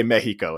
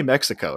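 First: "Mexico" said as MEH-hee-koh; Spanish-style pronunciation. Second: "Mexico" said as MEK-si-koh; English pronunciation. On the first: Retold or imitated. Mocking how they say it, "Mexico" as MEH-hee-koh. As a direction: turn the x of "Mexico" into an h. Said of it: "multiple times they say Mexico". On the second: Shown as a demonstration. Telling them it's okay, "Mexico" as MEK-si-koh. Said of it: "you can say Mexico".

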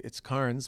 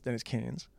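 First: "Cairns" with the r sounded, KARNS; own spelled pronunciation. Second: "Cairns" with no r, like CANS; "Cairns" rhyming with "fans"; conceded Australian pronunciation. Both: Retold or imitated. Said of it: "if you guys wanna say Cairns".

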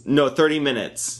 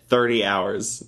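First: "thirty" stressed, falling tune. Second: Said in the usual way. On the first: Real, not acted. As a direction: correct "thirty" by leaning on it.

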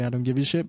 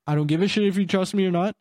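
First: Said in the usual way. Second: Brusque and a bit quick, slightly raised; irritated brush-off to the drunk caller; blunt dismissive. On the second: Retold or imitated. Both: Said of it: "I didn't say".

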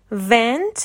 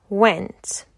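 First: "went" begun with a V, as vent; V sound. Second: "went" begun with a rounded W; W sound. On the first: Teacher showing third pair, "went" said with V. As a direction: teeth on lip to start "went" as vent. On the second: Teacher showing third pair, "went" said with W. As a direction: round the lips to start "went", falling tone. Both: Shown as a demonstration. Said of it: "V و Wه".

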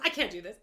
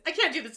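First: Said in the usual way. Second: Higher and louder, upset; louder upset repeat. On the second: Retold or imitated. Host quoting the upset wife's second, louder line. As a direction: say it again with rising panic. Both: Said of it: "She goes".

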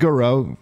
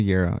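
First: Garreau as guh-ROH; Garreau with a reduced first vowel; other pronunciation. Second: Garreau as GAIR-oh; Garreau with a full "gair" first; own pronunciation. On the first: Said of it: "If he says Garreau". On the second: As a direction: stress the start of Garreau, GAIR-oh. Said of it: "I say Garreau". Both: Shown as a demonstration.

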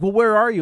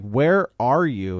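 First: Raised pitch on a retold, concerned question; mildly puzzled question. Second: Drawn-out, measured demand at normal pitch; slow insistent question. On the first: Husband first asks his wife where she is, puzzled. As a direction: imitate a puzzled husband, high and lightly. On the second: Retold or imitated. Husband presses his evasive wife on the phone, slow and insistent. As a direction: imitate a husband asking slowly, word by word.

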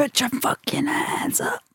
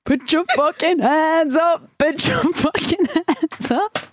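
First: High, breathless whisper of a crowd chant; whispered hype line. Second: High, slow, stretched hype yell; DJ hype shout. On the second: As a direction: hype up the crowd like a DJ. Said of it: "you have to shout". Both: Pretend.

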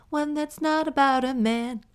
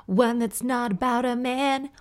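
First: Gleeful, punching "not"; more delighted. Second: High, loud, delighted; gleeful announcement. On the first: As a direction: stress "not" in "not about a man". Repeated with more glee. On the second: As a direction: rejoice at a non-man email. Delight at different email. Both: Real, not acted.

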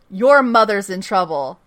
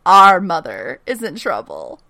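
First: Said in the usual way. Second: "Our" punched louder at the start; stress on OUR. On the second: Retold or imitated. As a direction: lean hard on "Our", correcting yourself. Corrects "your" to "our.

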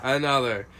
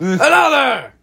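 First: Said in the usual way. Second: High, ringing call for more; mock feast-hall bellow. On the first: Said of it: "I have another one prepared". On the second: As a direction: demand it like a god at a banquet.

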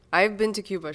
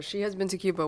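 First: Been stressed, falling. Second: Has stressed, falling. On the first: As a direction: hit been in I've been to Cuba. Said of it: "stress drill on been". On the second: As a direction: hit has in She has been to Cuba. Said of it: "stress drill on has". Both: Shown as a demonstration.

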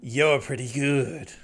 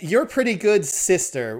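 First: Put-on slow drawling old-timer voice; lightly voiced old prospector. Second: Put-on high, loud old prospector voice; a hint of a grizzled old-timer. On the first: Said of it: "they've decided that he's gonna talk like this". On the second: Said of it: "like, an old prospector thing".

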